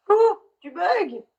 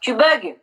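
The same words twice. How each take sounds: First: Calling out slowly and higher to a frozen video guest; slow, higher drawn-out call across the line. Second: Said in the usual way. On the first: Real, not acted. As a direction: stretch the name out, trying to get her attention.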